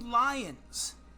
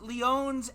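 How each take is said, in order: First: The first vowel sounds like 'lie'. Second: The first vowel sounds like 'lee'.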